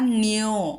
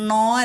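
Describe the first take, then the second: First: The syllable has a y-glide after n. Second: The syllable has no y-glide after n. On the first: The speaker calls it right. "യകാരം കൂട്ടണം" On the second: The speaker calls it wrong. "നോ അല്ല"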